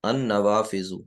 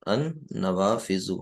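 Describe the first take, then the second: First: Said in the usual way. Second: ان نوافذ said very slowly, each sound drawn out; teacher spelling out ان نوافذ slowly for the class; slow model reading. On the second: Shown as a demonstration.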